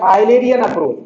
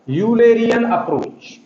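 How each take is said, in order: First: The first syllable sounds like 'eye'. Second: The first syllable sounds like 'you'. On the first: "कुछ लोग आइलर नाम से भी इस वर्ड को पढ़ते हैं" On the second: "कुछ लोग यूरोप के नाम से यूरोली यू पढ़ते हैं"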